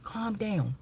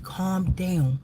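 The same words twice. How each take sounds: First: Soft whispered "Calm down.". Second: Said in the usual way. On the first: Retold or imitated. Soothing her upset brother, a whispered "Calm down.". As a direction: hush him gently in a whisper. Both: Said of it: "I said, "Calm down".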